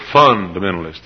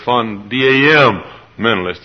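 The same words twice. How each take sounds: First: The stress is on the first syllable. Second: The stress is on the second syllable. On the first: "Sometimes emphasis on the first syllable" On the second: "Sometimes emphasis on the second syllable"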